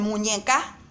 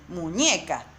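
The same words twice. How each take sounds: First: MUÑECA stressed on the last syllable, mu-ñe-CA, rising; misplaced stress on the CA of MUÑECA; wrong final stress. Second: MUÑECA stressed on the middle syllable, mu-ÑE-ca; natural stress on the ÑE of MUÑECA; correct penultimate stress. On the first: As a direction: say MUÑECA wrongly, loud lift on CA. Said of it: "tampoco es la sílaba tónica". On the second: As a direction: lean on ÑE in MUÑECA. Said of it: "esta es la sílaba tónica". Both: Shown as a demonstration.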